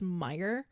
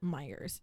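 First: The name ends without an s sound. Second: The name ends with an added s sound. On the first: The speaker calls it right. "It's actually just Meijer" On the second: The speaker calls it wrong. "the entirety of the state of Michigan calls it Meijer's, even though there's no S in the name"

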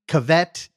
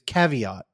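First: It is said as cavette instead. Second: It is said as the standard word caveat. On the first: The speaker calls it wrong. "neither of them could pronounce the name ... would call it" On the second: The speaker calls it right. "the name, which is Caveat"

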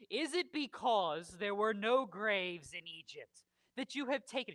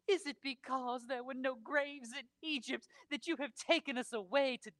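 First: It is read in his plain voice. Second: It is read in a dramatic Scarlett O'Hara voice.

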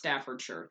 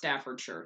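First: The name is said the way locals say it. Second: The name is said the way locals say it.

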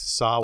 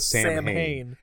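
First: The word is said the Irish way. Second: The word is read out as it is spelled. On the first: The speaker calls it right. "they corrected it to Samhain" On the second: The speaker calls it wrong. "they mispronounced Samhain again"

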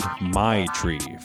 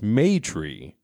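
First: The first syllable sounds like 'my'. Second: The first syllable sounds like 'may'. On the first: It sounds like a slang word for marijuana. "I see the AI and I go I in that" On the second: It is short for matriarch. "as in short for a matriarch"

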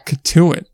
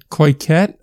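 First: The name ends with a 'tuit' sound. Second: The name ends with a 'ket' sound. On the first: The speaker calls it right. "It's Katuit" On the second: The speaker calls it wrong. "that's bad. Not even close"

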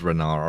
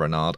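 First: The final D is not pronounced. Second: The final D is pronounced. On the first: "a silent like D on the end" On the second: "or not"

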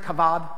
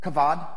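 Both takes have the same delivery.

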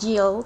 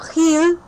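First: The first sound is a hard g sound. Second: The first sound is a throaty, raspy sound. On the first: The speaker calls it wrong. "not Gil" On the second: The speaker calls it right. "you know the sound of the so Mateo Gil"

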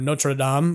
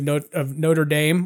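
First: The name is pronounced with a French sound. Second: The name is pronounced with an American English sound.

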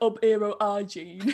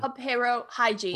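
First: Every initial h sound is dropped, Yorkshire-style. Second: Every initial h sound is clearly pronounced.

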